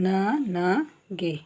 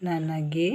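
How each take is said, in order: First: Slow demo. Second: Said in the usual way. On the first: Shown as a demonstration. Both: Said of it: "ಗ plus A".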